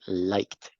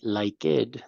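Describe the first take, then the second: First: The ending is a plain T sound. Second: The ending is not a plain T sound. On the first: The speaker calls it right. "we have to say liked" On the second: The speaker calls it wrong. "We don't say liked"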